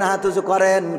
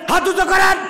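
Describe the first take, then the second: First: It is said calmly in a melodic preaching tune. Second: It is shouted angrily without the melodic tune.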